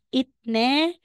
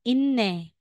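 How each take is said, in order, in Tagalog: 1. Nagtatapos sa tunog na t ang unang pantig. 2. Nagtatapos sa tunog na n ang unang pantig. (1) "Instead na sasabihin mong itne" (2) "magiging inne"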